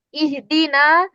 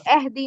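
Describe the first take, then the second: First: اہدینا said as ihdina with a rising end; correct form. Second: اہدی said as ehdi; wrong form. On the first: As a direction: model the right ihdina. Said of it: "پڑھنا ہے اس کو". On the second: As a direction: show the ehdi mistake. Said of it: "اہدی نہیں پڑھنا". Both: Shown as a demonstration.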